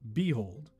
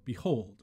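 First: The stress is on the first syllable. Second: The stress is on the second syllable. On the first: The speaker calls it wrong. "not behold" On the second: The speaker calls it right. "Let's start with iambic. So we have behold"

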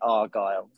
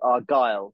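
First: The stress is on the first syllable. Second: The stress is on the second syllable. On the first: This is how most other people say it. "everybody else pronouncing it Argylle with the accent on the A" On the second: This is how a Scottish speaker would say it. "If you were Scottish, I think it would be called Argylle, so you kind of accent the G"

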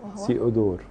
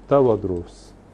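First: The name ends in a short 'dor' sound. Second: The name ends in a 'dros' sound. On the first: This is the Greek form of the name. "بالنطق اليوناني" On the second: This is the Coptic form of the name. "والنطق القبطي"

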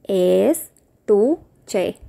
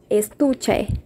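First: The word is said slowly and carefully. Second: The word is said at normal speed.

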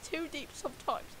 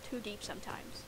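First: It is said in a put-on British accent. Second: It is said in her normal American accent. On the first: The speaker calls it right. "I need to be doing" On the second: The speaker calls it wrong. "Oh, wait. I need to be doing"

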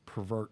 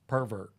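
First: The stress is on the second syllable. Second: The stress is on the first syllable. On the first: It means to alter something from its original design. "the verb sense of the word" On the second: It names a person, with a negative connotation. "We put the emphasis on the first syllable"

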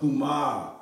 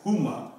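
First: The final vowel is long. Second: The final vowel is short. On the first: The speaker calls it right. "but Huma. I got the low because I got another A right here" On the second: The speaker calls it wrong. "I shouldn't be saying just like Huma"

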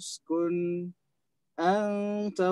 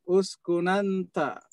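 First: A brief silent break comes before 'anta'. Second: The n runs straight into 'anta' without a catch. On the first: "saktah di sakin mafsul" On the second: "Dengan nakal ya"

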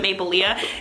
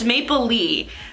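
First: It does not sound like maple leaf minus F. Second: It sounds like maple leaf without the F. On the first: The speaker calls it wrong. "everyone pronounces it wrong, pronounces it Maplelea" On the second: The speaker calls it right. "just like maple leaf, but without the F"

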